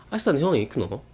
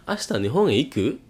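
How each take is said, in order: First: "Ashita nihon e iku no?" with "no" rising at the end; rising question. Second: "Ashita nihon e iku?" with the end of "iku" rising; rising question. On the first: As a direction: end on a lifted "no", casual and friendly. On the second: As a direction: lift the end into a casual question. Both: Shown as a demonstration. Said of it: "Kalau nanya tuh ditaikin gitu ya".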